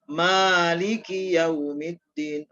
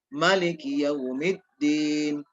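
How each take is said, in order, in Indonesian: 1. Vokal pertama pada maliki dibaca panjang. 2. Vokal pertama pada maliki dibaca pendek. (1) "maliki maknya dipanjangkan" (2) "tidak panjang"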